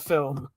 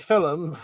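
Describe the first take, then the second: First: It is said in a standard accent. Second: It is said in a Geordie accent. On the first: "instead of film" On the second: "I also say film"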